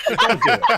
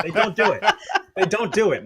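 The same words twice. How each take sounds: First: Much higher and louder squeal; mock outraged shout. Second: Laughing repeat. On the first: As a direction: shriek it in comic outrage. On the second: Acted. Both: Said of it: "Friends don't let friends drive".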